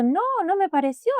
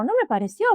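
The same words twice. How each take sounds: First: Retold denial, pitch jumping much higher; firmly insisting it was not imagined, voice shooting up; insistent denial. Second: Retold denial, pitched higher, a bit less high; repeated denial. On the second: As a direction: insist again, a little calmer. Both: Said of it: "le digo yo".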